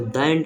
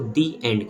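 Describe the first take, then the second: First: The word 'the' has a short 'thuh' vowel. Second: The word 'the' has a long 'thee' vowel. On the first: The speaker calls it wrong. "इसको द end नहीं" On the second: The speaker calls it right. "इसको दी एंड कहते हैं"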